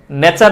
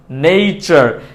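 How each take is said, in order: First: নেচার as "ne-char", plain e; wrong pronunciation. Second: নেচার as "nei-char"; correct pronunciation. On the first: Teacher rejecting the mistake, নেচার with plain e. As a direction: keep নেচার free of any glide. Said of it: "না". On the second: Teacher correcting learners, নেচার with an ei glide. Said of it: "সঠিক উচ্চারণটা". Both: Shown as a demonstration.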